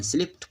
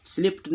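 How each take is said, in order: First: स्लिप्ड ending in a voiceless T; correct past ending. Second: स्लिप्ड ending in a voiced D; wrong past ending. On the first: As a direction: say स्लिप्ड as "slipt". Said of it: "ट sound दे रहा है". (स्लिप्ड के अंत में ट की आवाज़) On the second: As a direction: say स्लिप्ड with D after P. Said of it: "नहीं पढ़ते हैं". (स्लिप्ड के अंत में ड की आवाज़) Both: Shown as a demonstration.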